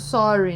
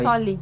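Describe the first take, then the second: First: The middle consonant is an r sound. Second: The middle consonant is an l sound. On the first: "o sorry, né?" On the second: "Que vira"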